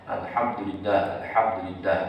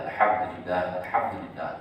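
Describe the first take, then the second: The two takes are said the same way.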